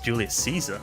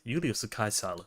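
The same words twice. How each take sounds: First: The name has an English pronunciation. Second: The name has a Japanese pronunciation. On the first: "In English, it's pronounced as Julius Caesar" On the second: "Japanese was like"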